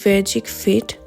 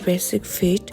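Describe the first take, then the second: First: The name is said with a French pronunciation. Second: The name is said with a plain English pronunciation.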